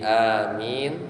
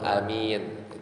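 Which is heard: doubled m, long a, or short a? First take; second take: long a; short a. First: The first vowel a is held long. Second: The first vowel a is kept short. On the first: "dipanjangkan a-nya jadi amin" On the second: "a-nya pendek itu boleh, itu amin"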